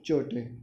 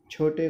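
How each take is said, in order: First: चोटे with unaspirated ch; cha for chha. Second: Said in the usual way. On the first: Shown as a demonstration. Teacher showing a common mistake, unaspirated ch in चोटे. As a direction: drop the puff of air, saying चोटे. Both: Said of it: "छा को चा कहते हैं".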